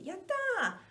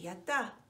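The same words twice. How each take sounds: First: It is said with strong, high-energy excitement. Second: It is said with mild, low-energy excitement. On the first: A big feeling of joy. "Bigger joy, like, hell yeah" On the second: A small feeling of joy. "It's like small joy"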